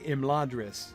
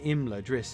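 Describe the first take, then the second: First: The stress is on the second syllable. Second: The stress is on the first syllable. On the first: "If you say Imladris, you can say that if you want, but you can't say it in that line" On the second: "clearly wants to pronounce Imladris with the stress on the first syllable"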